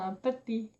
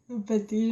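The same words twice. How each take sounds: First: Savoring "un pâté" in a soft playful voice; amused repeat. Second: Laughing through the word. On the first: Shown as a demonstration. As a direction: repeat "un pâté" quietly, enjoying the word. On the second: Real, not acted. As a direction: giggle while repeating it. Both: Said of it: "j'aime bien comment je parle".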